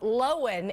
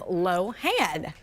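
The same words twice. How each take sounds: First: The stress is on the first syllable. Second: The stress is on the second syllable. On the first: The speaker calls it right. "the emphasis on the first syllable. stressing the O" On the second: The speaker calls it wrong. "instead of the A"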